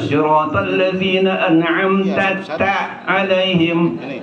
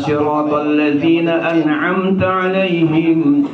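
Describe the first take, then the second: First: The syllable 'ta' is said twice in a row. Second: The syllable 'ta' is said only once. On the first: The speaker calls it wrong. "ini diulang" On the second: The speaker calls it right.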